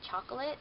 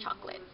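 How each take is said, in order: First: The middle vowel is pronounced, giving three syllables. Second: The middle vowel is dropped, giving two syllables. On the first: The speaker calls it right. "I'm pretty sure it's supposed to be chocolate" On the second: The speaker calls it wrong. "my second O is like non-existent"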